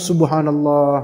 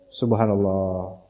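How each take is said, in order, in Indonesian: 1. Diucapkan dengan nada senang dan gembira. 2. Diucapkan dengan nada kecewa dan terkejut. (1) "Tapi tentu wajahnya sumringah ya" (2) "jangan anaknya ranking satu, subhanallah"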